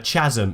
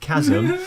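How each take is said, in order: First: The word begins with a 'ch' sound. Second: The word begins with a 'k' sound. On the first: The speaker calls it wrong. "he said ch- uh, chasm instead of" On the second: The speaker calls it right. "instead of chasm"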